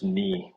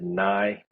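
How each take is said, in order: First: The vowel sounds like 'ee'. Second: The vowel sounds like 'eye'. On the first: The speaker calls it right. "it's just knee with three eyes" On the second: The speaker calls it wrong. "Some people have pronounced it nigh"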